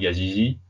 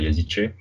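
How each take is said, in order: First: The name ends with a 'zi' sound. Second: The name ends with a 'ce' sound. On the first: The speaker calls it wrong. "je crois que c'est pas comme ça qu'on prononce" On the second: The speaker calls it right. "c'est comme ça"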